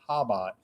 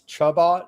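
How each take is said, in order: First: The word starts with an h sound. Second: The word starts with a ch sound. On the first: The speaker calls it right. "the C is silent" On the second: The speaker calls it wrong. "if you just read it like normal"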